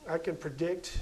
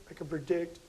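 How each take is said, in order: Both takes have the same delivery.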